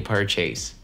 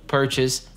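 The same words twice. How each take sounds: First: The last syllable sounds like the word chase. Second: The last syllable is short and reduced. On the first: The speaker calls it wrong. "а не purchase" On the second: The speaker calls it right. "Это просто purchase"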